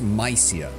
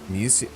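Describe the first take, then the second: First: The name is said with an ordinary pronunciation. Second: The name is said with an odd pronunciation. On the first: This is how the speaker expected it to be said. "they don't pronounce it like that" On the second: This copies how the game's dialogue says it. "They keep pronouncing this weird in every dialogue"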